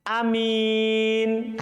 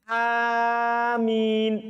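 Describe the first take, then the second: First: The first vowel is short and plain. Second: The first vowel is long and plain. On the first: "hamzanya pendek dan mimnya tidak ditasdid" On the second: "Hamzanya panjang, mimnya tidak ditasdid"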